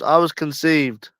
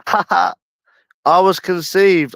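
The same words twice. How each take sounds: First: Said in the usual way. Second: Laughed out slowly through giggles; giggling, drawn-out and pitched high; laughing. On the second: Real, not acted. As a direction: stretch it out while cracking up. Laughing while announcing birth.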